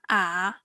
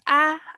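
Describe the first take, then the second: First: The syllable is said with the third tone. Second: The syllable is said with the first tone.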